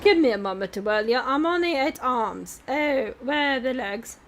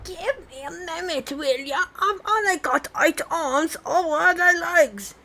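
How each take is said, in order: First: It is said in the first character voice. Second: It is said in a new character voice.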